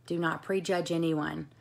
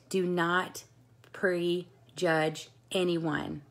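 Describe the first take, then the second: First: Said in the usual way. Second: Very slow, each word weighed; slow emphasis. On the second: Shown as a demonstration. Coach to her team, slow and emphatic. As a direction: drawl out prejudge anyone slowly.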